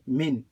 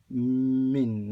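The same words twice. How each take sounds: First: Said in the usual way. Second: Long hummed M before "min"; wrongly doubled M. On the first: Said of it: "You say". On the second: Shown as a demonstration. Teacher warning what not to say, held M on "min". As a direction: stretch the first sound of "min", "mmm-min". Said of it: "you don't say min".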